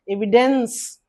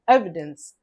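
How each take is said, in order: First: The stress is on the second syllable. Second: The stress is on the first syllable. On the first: The speaker calls it wrong. "If the second syllable is stressed, we have to pronounce it as evidence. But not like that" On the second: The speaker calls it right. "First one, first syllable is stressed"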